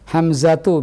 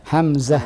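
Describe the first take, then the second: First: The word ends with a voiced tu syllable. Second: The word ends with a silenced h sound.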